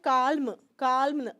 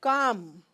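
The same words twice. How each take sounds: First: Calm said "kaalm" with the l sounded; mispronounced L. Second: Calm said "kaam" with a long vowel; silent L. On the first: Retold or imitated. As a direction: pronounce a clear l before the m in calm. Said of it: "कई students बोलते हैं". (calm में ल साफ़ बोलते हुए) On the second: Shown as a demonstration. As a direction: drop the l in calm and hold the aa. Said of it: "You will only say calm". (calm में ल चुप, "काम")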